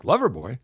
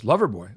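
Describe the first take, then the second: First: Questioning echo of LOVERBOY, rising at the end; Loverboy with a rising, querying tune; retold puzzled echo. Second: Said in the usual way. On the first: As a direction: repeat Loverboy as a doubtful question.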